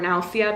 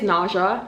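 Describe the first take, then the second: First: The word is pronounced the Spanish way. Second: The word is pronounced the English way. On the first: The speaker calls it right. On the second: The speaker calls it wrong.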